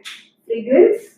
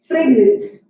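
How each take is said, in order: First: The second syllable is said with an r sound. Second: The second syllable is said with an n sound. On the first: The speaker calls it right. "क्या सही pronunciation है? फ्रेग्रेंस।" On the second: The speaker calls it wrong. "जहाँ पर र बोलना चाहिए वहां पर न बोलते हैं।"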